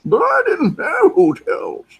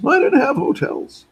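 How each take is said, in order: First: Very high, loud raspy-style put-on voice; Andy Devine impression. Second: High, loud put-on voice of a friend; imitating Kellett. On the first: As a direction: squeak it out like an old cowboy sidekick. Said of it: "He sounds like Andy Devine". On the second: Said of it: "That's how he talks, by the way".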